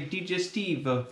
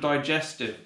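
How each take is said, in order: First: It is pronounced with a Swedish-style pronunciation. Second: It is pronounced with an English pronunciation. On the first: The word is treated as a translated Swedish word. The speaker calls it wrong. "in Sweden they say digestive" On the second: The word is treated as an English brand name. The speaker calls it right. "instead of digestive"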